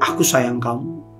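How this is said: It is said in an angry tone.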